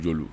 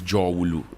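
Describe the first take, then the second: First: The middle of the name is dropped. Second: Every syllable of the name is said. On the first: The speaker calls it wrong. "people say Jolu Jolu Jolu" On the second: The speaker calls it right. "It's Jowulu, the Great Valley"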